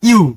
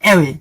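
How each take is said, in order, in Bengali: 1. শব্দটি 'you'-র মতো শোনায়, এক অক্ষর। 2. শব্দটি 'eh-way'-র মতো শোনায়, দুই অক্ষর। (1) "ওটার উচ্চারণটা হবে ইউ" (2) "ভুল বলছি নাকি?"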